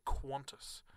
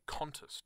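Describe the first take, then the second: First: Qantas said as "KWON-tus". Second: Qantas said as "KAN-tus"; Qantas without w. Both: Shown as a demonstration. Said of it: "there's an invisible U in there".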